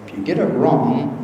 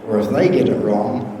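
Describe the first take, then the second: First: "you" leaned on in "if you get it wrong"; stress on you. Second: "they" leaned on in "or if they get it wrong"; stress on they. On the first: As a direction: set "you" against "they", pressing on "you". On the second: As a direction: set "they" against "you", pressing on "they". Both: Shown as a demonstration.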